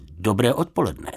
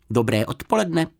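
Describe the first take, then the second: First: Váhavé „dobré odpoledne“ v běžné výšce; odpověz nesměle a nejistě. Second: Lehce vyšší, zřetelný medvídkův hlásek; zdvořile pozdrav jako malý medvídek; zdvořilý medvídek. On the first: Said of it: "odpověděl pan Fousek nejistě". (pan Fousek zaskočeně odpovídá medvídkovi, nejistě) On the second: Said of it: "ozval se vysokým, ale zřetelným hláskem". (medvídek zdvořile zdraví pana Fouska, vyšším hláskem) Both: A narrator's reading.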